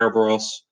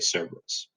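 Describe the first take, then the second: First: The name is said with the Greek pronunciation. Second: The name is said with the modern English pronunciation. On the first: This is how it was said in ancient Greek and Latin. "If you're using your Greek pronunciation, it's usually more like a Kerberos" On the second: This is how people usually say it today. "nowadays we tend to say Cerberus"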